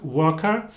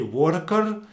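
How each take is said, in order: First: It is soft, with the R not heard. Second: It is said with strongly rolled R sounds. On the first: "in British English it would sound a little bit softer" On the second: "really roll those R's"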